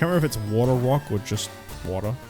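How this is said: The emphasis falls on an unexpected word. The speaker calls it wrong. "I emphasized the wrong word a second ago"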